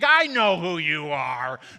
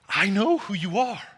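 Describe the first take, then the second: First: It is said in a mocking, sarcastic tone. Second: It is said in a trembling, fearful tone. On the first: The demon is taunting rather than afraid. "demonic, satanic sounding, sarcastic" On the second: The demon is afraid of his authority. "perhaps it was fear-filled"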